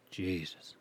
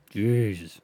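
First: Much softer, under the breath; muttered exasperation. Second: Said out loud with a bit more push; louder exasperation. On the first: Host fed up with his oversensitive mic, soft muttered sigh. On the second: Host fed up with his mic, exclaims it out loud. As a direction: exclaim it openly this time. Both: Real, not acted.

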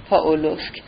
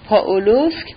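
First: پاولوسک dropped down as if deciding; falling settled. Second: پاولوسک with a rising, questioning tune; پاولوسک lifted at the end, as if asking; rising musing. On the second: (پاولوسک با لحنی پرسشی و رو به بالا) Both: Acted. Musing over where Kolya went.

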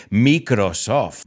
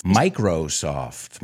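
First: Drawn-out "Microsoft" with Spanish vowels; Spanish pronunciation. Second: "Microsoft" said the English way, MY-crow-soft; drawn-out, lower "Microsoft" with English vowels; English pronunciation. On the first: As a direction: say "Microsoft" slowly with a Spanish first syllable "mee". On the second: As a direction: say "Microsoft" very slowly, first syllable "my". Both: Shown as a demonstration. Spanish versus English pronunciation shown.

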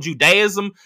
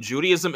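First: "Judaism" said as "joo-DAY-ism"; mispronounced Judaism. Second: Said in the usual way. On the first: Retold or imitated. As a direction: stress a "day" in the middle of "Judaism". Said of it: "'cause she said Judaism". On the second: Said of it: "I'm like, "You mean Judaism?".

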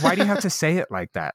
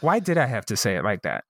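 First: Higher-pitched mock protest; retold manager's complaint. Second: Lower, muted self-questioning; retold self-reproach. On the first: Manager objects to the crude remark, retold in higher-pitched protest. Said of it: "And she goes". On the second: Speaker questions own remark to the manager, lower self-reproach. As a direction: replay asking yourself with mild regret. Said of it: "one of the moments that I was like".

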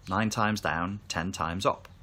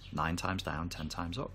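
First: Said in the usual way. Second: Softer repeat. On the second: Shown as a demonstration. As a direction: echo the saying much softer, to yourself. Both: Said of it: "Japanese saying".

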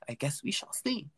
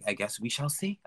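First: Higher, softer, half-whispered; playful airy half-whisper; airy teasing repeat. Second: Said in the usual way. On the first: Pretend. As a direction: repeat it in a high, hushed voice.

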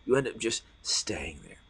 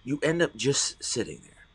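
First: Hushed whispered echo. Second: Said in the usual way. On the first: Shown as a demonstration. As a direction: whisper it back to the room. Repeated as a whisper.

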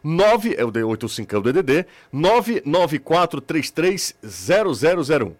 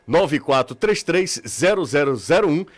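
First: Over enunciating each digit, slowly; slow and deliberate. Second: Said in the usual way. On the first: Shown as a demonstration. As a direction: spell the number out carefully. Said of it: "eu vou falar bem devagarinho". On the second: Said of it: "Vou repetir".

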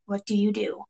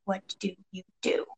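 First: Soft, ominous question; quietly posed dilemma; hushed suspense. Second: Very soft, word by word; barely voiced, each word set apart; near-whispered repeat for suspense; hushed suspense. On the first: Narrator poses the dilemma. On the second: Repeats dilemma, softer and more drawn out. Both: A narrator's reading.

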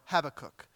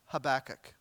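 First: Habakkuk as HAB-uh-kook; stress on first syllable. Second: Habakkuk as huh-BACK-uk; stress on middle syllable. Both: Shown as a demonstration. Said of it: "how you place the emphasis".

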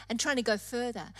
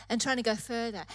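The two takes are said the same way.

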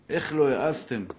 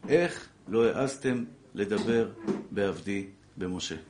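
First: Exclaimed challenge, voice lifted; quick, raised-voice reproach; indignant rebuke. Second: Slow, weighty divine rebuke; measured scriptural reproach with long pauses, sinking at the end; solemn verse recital. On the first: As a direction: throw the rebuke out at the listeners. Thunders God's rebuke from scripture. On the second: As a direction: spell out the verse phrase by phrase, slowly. Recites the verse as God's words. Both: Retold or imitated.

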